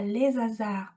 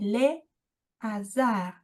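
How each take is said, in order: First: A z sound links les to hasard. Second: Les and hasard are not linked. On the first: The speaker calls it wrong. "On ne dit pas" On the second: The speaker calls it right. "on dit"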